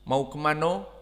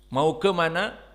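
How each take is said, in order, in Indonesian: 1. Diucapkan dengan logat Minang. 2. Diucapkan dengan logat bahasa Indonesia baku. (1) "orang-orang Sumatera misalnya Barat" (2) "bahasa Indonesia yang murni asli"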